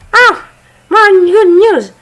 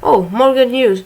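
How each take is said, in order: First: It is said in a put-on girly voice. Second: It is said in his normal voice.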